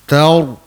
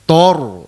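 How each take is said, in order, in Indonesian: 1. Konsonan pertama ringan; hanya r yang terdengar berat. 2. Konsonan pertama sudah terdengar berat dan membulat. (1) "apabila kita mm, menyebut huruf ra, baru dikembungkan sedikit rongga mulut" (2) "Kalau kembung awal jadi tor"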